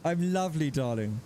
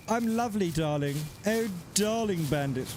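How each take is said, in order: First: English accent again. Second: Put-on posh English accent. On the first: Shown as a demonstration. Streamer re-reading the chat line in an English accent. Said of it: "I read it in an English accent". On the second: Streamer greeting a viewer in a put-on posh English accent. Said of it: "I said that in an English accent".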